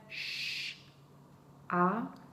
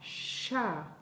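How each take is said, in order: First: A pause separates the consonant from the vowel. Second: The consonant and vowel are joined without pause. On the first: "séparer les deux sons" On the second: "prononcer de façon liée"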